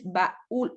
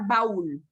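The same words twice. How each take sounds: First: The vowels split into two syllables, stress on u. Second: The vowels blend into one syllable, stress on a. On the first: This is how it reads with the accent mark. The speaker calls it right. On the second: This is how it reads without the accent mark. The speaker calls it wrong.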